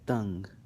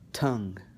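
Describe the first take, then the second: First: The t is released without a puff of air. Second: The t is released with a puff of air. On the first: "then I'm going to do it with the ta" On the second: "I'm going to do it with the T"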